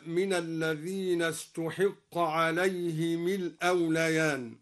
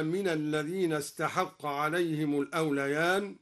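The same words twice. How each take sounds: First: استحق as ustuhiqqa, damma on the ت and kasra on the ح; passive reading of استحق. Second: Said in the usual way. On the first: Shown as a demonstration. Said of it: "قرأ الدوري بضم التاء وكسر الحاء هكذا". (استحق بضم التاء وكسر الحاء) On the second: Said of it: "بضم التاء وكسر الحاء".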